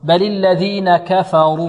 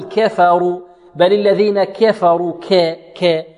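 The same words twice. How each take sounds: First: كفروا with a plain open a on kaf; slow recitation, light fa and heavy ra in كفروا; medium-open kaf. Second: كفروا with kaf's a bent toward e, "ke"; wrong imala, "keferu" for كفروا; tilted kaf vowel. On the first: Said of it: "تفتح الكاف فتحا متوسطا". (فتح الكاف فتحا متوسطا في كفروا) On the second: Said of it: "لا نميل فتحة الكاف". (إمالة فتحة الكاف في كفروا) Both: Shown as a demonstration.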